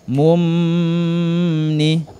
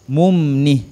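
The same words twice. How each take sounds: First: The m is held with a nasal hum. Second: The m is short, with no nasal hum. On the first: The speaker calls it wrong. "jangan dibaca mumni" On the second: The speaker calls it right. "tidak dibaca dengung"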